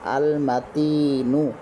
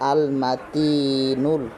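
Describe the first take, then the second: First: The word ends on a plain u vowel. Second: The word ends with an added l sound. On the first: The name is read on its own. "নুন পেশ নু" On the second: The name is joined to the next name. "পরের নামটি মিলিয়ে পড়ব তখন নুন লাম পেশ নুল"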